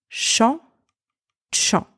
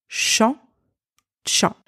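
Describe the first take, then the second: The two takes are said the same way.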